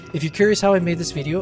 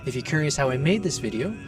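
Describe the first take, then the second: First: It is spoken at a faster pace. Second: It is spoken at a slower pace.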